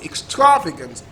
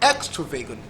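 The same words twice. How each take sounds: First: The stress is on the second syllable. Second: The stress is on the first syllable. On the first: "Second syllable" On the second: "First syllable"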